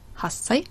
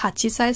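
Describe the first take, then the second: First: The chi drops and the s is doubled. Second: The chi sound is fully pronounced before sei. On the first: The speaker calls it right. "sondern hassei" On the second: The speaker calls it wrong. "nicht hachisei"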